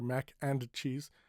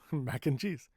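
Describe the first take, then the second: First: The D at the end of 'and' is pronounced. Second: The D at the end of 'and' is dropped. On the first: The speaker calls it wrong. "We don't say ... mac and cheese" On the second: The speaker calls it right. "We say ... mac and cheese"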